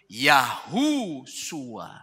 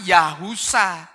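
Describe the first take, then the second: First: A 'u' vowel follows 'Yah', ending in 'sua'. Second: A 'u' vowel follows 'Yah', ending in 'sa'. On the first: The speaker calls it wrong. "huruf Ibraninya ini dibacanya apa" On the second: The speaker calls it right. "Ini dibaca bahkan Yahusa"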